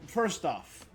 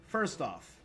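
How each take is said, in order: Both takes have the same delivery.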